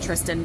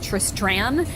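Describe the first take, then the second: First: The second syllable has no r: 'stan'. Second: The second syllable has an r: 'stran'. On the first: This is an easier version said on purpose. The speaker calls it wrong. "we pronounce it Tristan because Tristran is stupid and too hard to say" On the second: This is the name as written in the book. The speaker calls it right. "The character's name is Tristran"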